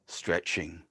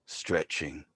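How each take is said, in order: Both takes have the same delivery.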